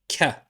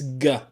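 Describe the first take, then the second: First: It starts with a plain k sound. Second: It starts with a hard g sound. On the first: "like the letter K" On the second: "like a G in girl"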